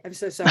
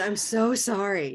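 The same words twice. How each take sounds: First: It sounds quick and not really sorry. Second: It sounds heartfelt, lingering on "so".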